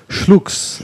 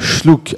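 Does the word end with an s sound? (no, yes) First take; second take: yes; no. First: The word ends with an s sound. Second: The word ends without an s sound. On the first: The speaker calls it wrong. "on ne prononce pas le S" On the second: The speaker calls it right. "on ne prononce pas le S"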